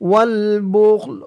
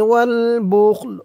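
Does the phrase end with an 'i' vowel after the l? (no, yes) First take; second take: no; no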